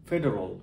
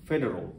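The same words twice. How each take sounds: The two takes are said the same way.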